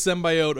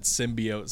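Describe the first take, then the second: First: Symbiote said "SIM-bye-oat"; long "eye" in symbiote; her pronunciation. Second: Symbiote said "SIM-bee-oat"; long "ee" in symbiote; Marvel's pronunciation. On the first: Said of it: "she says it's symbiote". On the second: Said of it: "everything Marvel has pronounced it". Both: Shown as a demonstration.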